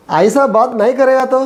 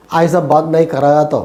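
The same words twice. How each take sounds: First: "ഐസ ബാത് നഹീ കരേഗാ തോ" held high to the end; slow, raised tone left hanging on "തോ"; high open tone. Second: "ഐസ ബാത് നഹീ കരേഗാ തോ" kept low, settling downward; slow, low tone falling away on "തോ". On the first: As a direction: keep "കരേഗാ തോ" up high, unfinished. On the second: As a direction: let "കരേഗാ തോ" sink as a statement. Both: Shown as a demonstration. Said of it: "രണ്ട് ടോണിൽ വന്നില്ലേ".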